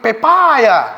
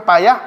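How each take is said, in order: First: The middle 'pa' vowel is lengthened. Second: The middle 'pa' vowel is short. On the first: "kamu memanjangkan panya" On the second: "panya masih pendek"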